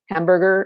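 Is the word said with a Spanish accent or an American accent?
American accent. It is said in a standard American English accent.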